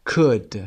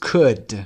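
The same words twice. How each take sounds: The two takes are said the same way.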